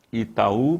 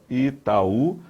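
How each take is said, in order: First: Said in the usual way. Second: "Itaú" slowly as i, ta, ú, rising at the end; separated vowels. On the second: Shown as a demonstration. Teacher demonstrating a hiatus to students, "Itaú" slowly divided into syllables. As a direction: stretch "Itaú" so the final ú stands as its own syllable. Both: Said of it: "a separação de duas vogais".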